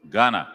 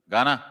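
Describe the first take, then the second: First: Said in the usual way. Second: "Ghana?" with a rising question tune at the end; questioning call. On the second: Real, not acted. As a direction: call "Ghana?" again, asking whether anyone answers. Roll call, no answer, asks again.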